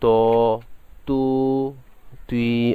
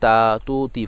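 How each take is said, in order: First: The syllables are said heavy, with a full mouth. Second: The syllables are said light, with a thin sound. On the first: The speaker calls it right. "হরফগুলো অবশ্যই ফুল করে পড়তে হবে" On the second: The speaker calls it wrong. "অনেকে তা তু তি পড়ে, এটা ভুল"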